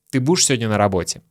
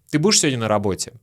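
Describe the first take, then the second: No difference in how they are said.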